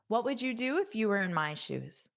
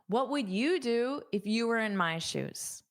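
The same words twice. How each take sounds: First: The sentence is said at a fast speed. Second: The sentence is said at a normal speed.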